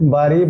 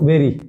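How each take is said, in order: First: The first vowel is an ah sound. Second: The first vowel is an eh sound. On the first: The speaker calls it wrong. "এর উচ্চারণ বাড়ি বা বুড়ি নয়" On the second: The speaker calls it right. "এর pronunciation এটা হবে বেরি"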